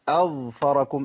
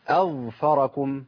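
The two takes are said the same way.

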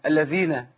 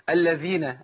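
Both takes have the same delivery.

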